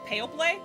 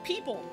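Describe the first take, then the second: First: Each spelled letter is sounded out, including the o. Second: It is said the usual way, without the o. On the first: A learner read the word from its spelling. The speaker calls it wrong. "she pronounced it people" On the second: This is how native speakers say it. The speaker calls it right. "How do you know that it's pronounced like that?"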